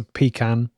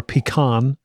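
First: "pecan" ending in "can", short a; first pronunciation of pecan. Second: "pecan" ending in "kahn", long a; American pronunciation of pecan. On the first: Co-host picking nuts from a lineup, "pecan" as PEE-can. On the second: Co-host adding how Americans say it, "pecan" as pee-KAHN. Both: Shown as a demonstration. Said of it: "as Americans say".

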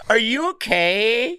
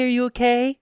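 First: High, slow, drawn-out "are you okay"; mock concerned girl. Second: High quick "are you okay"; mock concerned girl. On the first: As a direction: stretch it out like a pitying girl. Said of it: "No, they'd be like". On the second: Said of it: "they would have been like".

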